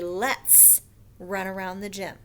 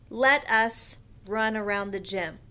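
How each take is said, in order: First: Let us is shortened to one syllable, let's. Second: Let us is said as two full words. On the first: The speaker calls it right. "We say let's run around the gym" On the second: The speaker calls it wrong. "We don't usually say it like that"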